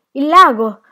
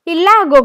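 First: Loud, high cry of alarm; breathless alarm. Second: Very loud, high-pitched scream of horror; horrified cry. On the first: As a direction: cry the warning as if winded. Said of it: "disse Tea Cake con voce affannosa". (grido affannato d'allarme) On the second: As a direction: shout it out, horror-struck. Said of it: "gridò Motorboat inorridito". (grido forte e inorridito) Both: A narrator's reading.

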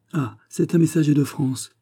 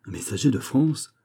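First: Higher-pitched, lightly animated announcement; mild exclamation. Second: Mildly surprised echo question, rising; surprised exclamation. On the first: Miss Stuart announcing a messenger to the king, lightly excited. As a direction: announce a visitor with a touch of excitement. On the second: King reacting to news of a messenger, mildly surprised. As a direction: repeat the news back as a question. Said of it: "s'écria Charles". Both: A narrator's reading.

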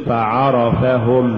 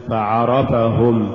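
First: Slow فعرفهم, even short vowels; full vowels. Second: Slow فعرفهم with short vowels distorted; uneven vowels. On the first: Teacher models correct recitation, فعرفهم evenly voweled. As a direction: give each syllable of فعرفهم equal room. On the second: Teacher shows crooked reading, فعرفهم uneven. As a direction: lose the even timing of فعرفهم. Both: Shown as a demonstration. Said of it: "ولا تقل".

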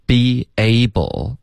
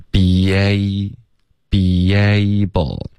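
First: Said in the usual way. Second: Very slow "be able" with a light y, "be-yable"; linking y sound. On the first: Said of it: "之间会出现一个很轻的". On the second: Shown as a demonstration. Teacher showing the link, "be able" stretched into "be-yable". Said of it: "之间会出现一个很轻的一个耶的音".

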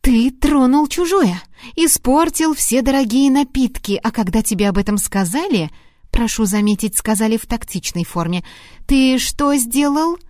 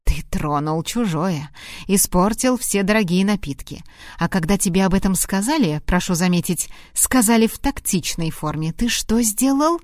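First: Heated reproach to a careless husband; angry scolding. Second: Said in the usual way. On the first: A narrator's reading. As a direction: scold him hard, pressing each charge. Lorraine scolding Hart, retake.

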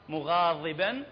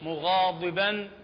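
First: مغاضبا with a thin, unemphatic ض; thin-consonant demo of مغاضبا; light Dad. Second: مغاضبا with a full, emphatic ض; heavy, dark-consonant demo of مغاضبا; heavy Dad. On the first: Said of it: "بالتخفيف". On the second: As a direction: thicken the ض in مغاضبا. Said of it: "لو بالتفخيم". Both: Shown as a demonstration.

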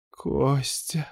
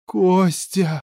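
First: Soft, strained high moan; groaned call. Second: High-pitched cry of alarm; screamed call. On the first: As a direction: moan the name softly, pitched up. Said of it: "простонал он тут же". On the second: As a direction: cry the name out high in desperation. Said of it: "заорала Ната". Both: A narrator's reading.

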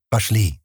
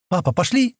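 First: "Пошли" falling, as a plain answer; agreeing. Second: Put-on "пошли" rising as a question, high childlike pitch. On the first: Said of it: "согласился Стэн". (согласно, «Пошли» с понижением) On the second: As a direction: ask hopefully, lifting "пошли" at the end. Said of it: "спросила она". (вопросительно, с подъёмом на «пошли») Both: A narrator's reading.

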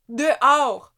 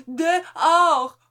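First: Firm, loud, higher "Dehors", falling hard; stern command. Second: Much higher, loud "Dehors" with a long falling shout; shouted order. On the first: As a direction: order him out, cold and forceful. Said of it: "répéta Amélie". (ordre sec et fort) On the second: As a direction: bark him out of the house. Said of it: "ordonna Amélie". (ordre crié, aigu et fort) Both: A narrator's reading.

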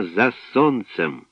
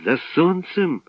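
First: Said in the usual way. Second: Astonished cry. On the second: A narrator's reading. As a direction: echo it as a high, startled question. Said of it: "скрикнув Славко". (здивований вигук високим голосом)

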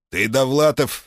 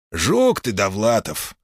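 First: Jovial boss naming him; hearty port boss. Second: Hearty teasing jab; teasing port boss. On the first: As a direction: say the name warmly. Name repeated. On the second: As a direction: rib him fondly. Manye teasing. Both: Acted.

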